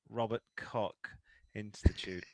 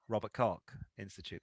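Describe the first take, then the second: First: It is said at normal speed. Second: It is said quickly.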